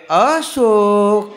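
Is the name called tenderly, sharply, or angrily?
tenderly. The name is called in a soft, tender voice.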